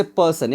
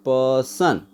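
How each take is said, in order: First: Said in the usual way. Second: पर्सन drawn out as "puh-sun", R silent; split into syllables. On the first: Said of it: "एक example लेते हैं". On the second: Shown as a demonstration. Teacher showing students two syllables in an example, split apart. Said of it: "इसमें दो syllable है".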